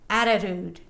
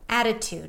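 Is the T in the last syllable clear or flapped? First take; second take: flapped; clear. First: The T in the last syllable is flapped. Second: The T in the last syllable is clear. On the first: The speaker calls it wrong. "I'm not saying attitude. It actually sounds really awkward" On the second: The speaker calls it right. "No, attitude. Why? Because this is a stressed syllable"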